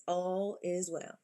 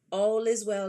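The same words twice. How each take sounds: First: Slow, softer reassuring repeat of "All is well"; cousin's saying. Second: Said in the usual way. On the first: Retold or imitated. Quoting her cousin to comfort Michi, slow and soft. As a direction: let "All is well" settle in slowly and softly. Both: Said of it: "like cousin says".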